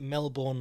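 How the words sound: It is said with an American pronunciation. The speaker calls it wrong. "please do not pronounce it Melbourne like some Yank"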